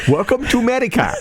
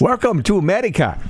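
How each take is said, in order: First: Put-on fast made-up Asian accent; quicker invented Asian accent, laughing; switching accents clumsily. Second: Put-on made-up vaguely Asian accent; clumsy invented Asian accent; switching accents clumsily. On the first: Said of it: "It's like an Asian accent". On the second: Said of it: "What accent was that?".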